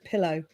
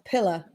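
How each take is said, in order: First: The word ends with an 'oh' sound. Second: The word ends with an 'ar' sound. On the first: This is the usual way to say it. "instead of pillow" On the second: This is how one particular author says it. "she says pillar instead of pillow"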